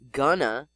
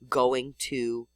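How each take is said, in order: First: The phrase is reduced and run together. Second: The phrase is said with every sound full. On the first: "Most people say gonna" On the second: "the older versions preserved in spelling"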